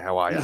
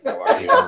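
First: It is said in an Australian accent. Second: It is said in an American accent. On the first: "We say how are ya?" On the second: "I love his American accent"

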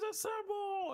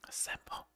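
First: It is shouted loudly, with hyped energy. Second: It is said quietly, in a lowered voice. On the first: The big moment feels rousing. The speaker calls it right. "you should be like" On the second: The big moment feels deflated. The speaker calls it wrong. "why'd you lower your voice?"

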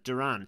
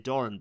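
First: The surname has a non-Irish pronunciation. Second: The surname has an Irish-style pronunciation. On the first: The speaker calls it right. "but it's Duran" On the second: The speaker calls it wrong. "I keep going into Irish and kind of wanting to say Doran"

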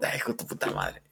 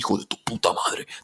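First: It is said in a joking, smiling tone. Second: It is said in an angry tone.

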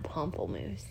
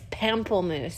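First: The first syllable has a rounded 'o' sound. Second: The first syllable has an open 'a' sound. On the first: The speaker calls it wrong. "not pamplemousse" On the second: The speaker calls it right. "I also think it's pamplemousse"

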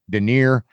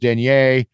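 First: It is said with an American pronunciation. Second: It is said with a French pronunciation.

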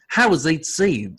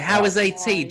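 First: It is said in the speaker's ordinary accent. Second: It is said in an Australian accent. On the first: The speaker calls it wrong. "I'm trying to get into my, I can't" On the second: The speaker calls it right. "There you go"

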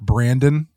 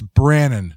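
First: The name is said with a D sound. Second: The name is said without a D sound. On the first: The speaker calls it wrong. "not Brandon" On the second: The speaker calls it right. "It's Brandon"

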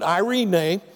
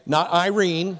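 First: It is pronounced as the Greek word. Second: It is pronounced like the English woman's name. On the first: It is the Greek word for peace. The speaker calls it right. "but Irene" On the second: It refers to a woman's name. The speaker calls it wrong. "not Irene, like the lady"

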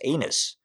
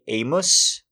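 First: The middle consonant is an n sound. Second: The middle consonant is an m sound. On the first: The speaker calls it right. "they pronounce it A-N-U-S" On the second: The speaker calls it wrong. "So why did I say Amos?"

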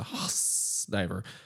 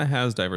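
First: The name ends in a long hissing 's' sound. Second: The name ends in a short buzzing 'z' sound. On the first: The speaker calls it right. "It's a Haas diver" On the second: The speaker calls it wrong. "It's not a Haas diver"

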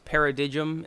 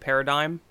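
First: It is pronounced the way it is spelled. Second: It is pronounced the usual standard way. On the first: The speaker calls it wrong. "at one point I thought it was paradigm" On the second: The speaker calls it right. "instead of paradigm"

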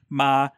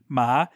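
First: The pitch is mid and stays level. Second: The pitch starts fairly high and rises. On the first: "and then a mid flat" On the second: "and then a high rising"

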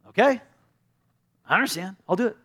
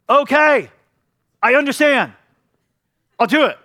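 First: The voice sounds exasperated and fed up. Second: The voice sounds hostile and angry. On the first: The speaker is annoyed at having to do it. "one was frustrated" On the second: The speaker resents the request. "one was angry"

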